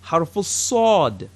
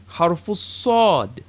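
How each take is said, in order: Both takes have the same delivery.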